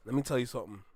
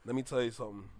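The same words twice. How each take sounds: First: Much lower and softer, leaning in; low and serious. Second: Even deeper and softer, grave; lower, hushed. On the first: Telling the artist something important, low and hushed. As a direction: drop the voice to make a point. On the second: Repeating the point to the artist, lower and hushed. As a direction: quieter still for weight. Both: Real, not acted.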